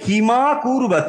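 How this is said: Kim runs straight into the next word. The speaker calls it right. "সন্ধি করে আপনি পড়ছেন তখন পড়তে হবে কিমা কুর্বত"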